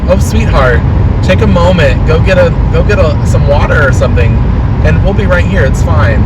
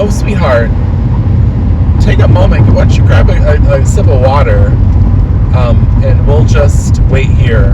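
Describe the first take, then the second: First: Higher, gentle and sweet reassurance; kind customer. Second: Kind customer. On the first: An imagined customer comforting the coughing worker, higher and sweet. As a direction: soothe a coughing worker like a kindly aunt. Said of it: "Can you say to me". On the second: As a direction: coo it out to make them feel looked after. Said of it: "if a customer was like". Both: Pretend.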